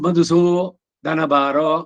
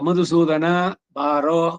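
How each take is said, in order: First: The name is split with a break inside it. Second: The name is said whole without a break. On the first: The word is split in the wrong place. The speaker calls it wrong. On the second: The word is kept whole. The speaker calls it right.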